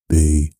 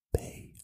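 First: Said in the usual way. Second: Very soft whispered letter. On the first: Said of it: "You don't use your throat". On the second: Shown as a demonstration. Demonstrating mouth-only speech, whispered. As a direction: breathe the letter out voicelessly. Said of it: "You use your mouth".

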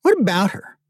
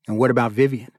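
First: High-pitched, defensive comeback; defensive retort. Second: Said in the usual way. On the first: Acted. Younger brother answering a question about Vivian, defensive.

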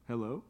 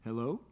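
Both takes have the same delivery.

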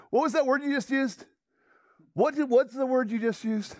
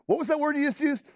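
First: The same eager question, still raised and urgent; excited outburst. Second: Quoting Peyton's startled excitement, pitched higher; excited outburst. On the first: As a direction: press him again, half laughing with discovery. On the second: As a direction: jump on the words as if you just found treasure. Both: Retold or imitated. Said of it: "Peyton jumped to his feet".

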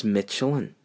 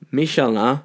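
First: "Michelin" said as MITCH-uh-lin; English pronunciation. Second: "Michelin" said as mee-shell-AN; French pronunciation. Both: Shown as a demonstration. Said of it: "is the same company as Michelin".

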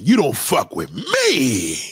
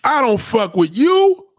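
First: "me" leaned on, slow and low; stress on me. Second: YOU stretched slow and high, the wrong version; stress on you. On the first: Correcting himself to the viewer, corrected take slow. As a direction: say it slowly and land hard on "me". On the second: Correcting his own line, the wrong take stressed. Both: Shown as a demonstration.

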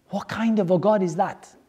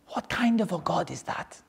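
First: Said in the usual way. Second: Whispered, half-voiceless and soft. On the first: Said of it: "repeated line, said aloud". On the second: Shown as a demonstration. Teacher whispering the question to the class, hushed. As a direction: hush it like a secret. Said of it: "repeated line, first whispered".

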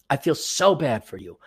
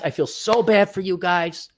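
First: Sincere, softer. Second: Said in the usual way. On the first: Real, not acted.

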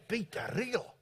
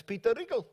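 First: Put-on softer, questioning South African accent. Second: Said in the usual way. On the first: Colleague reacting to a familiar name, South African accent. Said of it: "doing my South African accent".

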